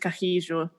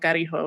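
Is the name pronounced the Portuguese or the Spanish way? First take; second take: Portuguese; Spanish. First: The name is said with a Portuguese pronunciation. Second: The name is said with a Spanish pronunciation. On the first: This is how it is said where he comes from. "but it is Carrijo. because he is Brazilian and they do speak Portuguese there" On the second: This is how the local community says it. "this is a Spanish speaking community and he's coming from Juarez, so they call him Carijo"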